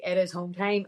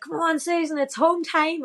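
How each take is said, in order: First: Said in the usual way. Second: High, excited cheer from the roadside; cheering lads. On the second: Retold or imitated. Lads from the Lisburn club cheering Susan on, high excited call. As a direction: call her home like a fan at the finish.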